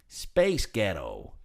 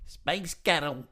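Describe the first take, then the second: First: It is said in an American accent. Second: It is said in a Glaswegian accent.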